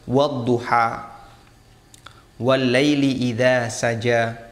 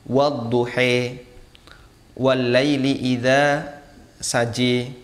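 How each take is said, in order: First: The final vowels are pronounced as an open a. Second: The final vowels are tilted toward an e sound. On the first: This is the Hafs reading tradition. "dan ini qiraah hafaz" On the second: This is another accepted reading tradition. "membaca dengan imalah, dibaca agak miring"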